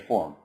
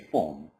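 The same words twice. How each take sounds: First: The R after the vowel is pronounced. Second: The R after the vowel is dropped. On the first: "The Americans would say form" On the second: "the British would say form"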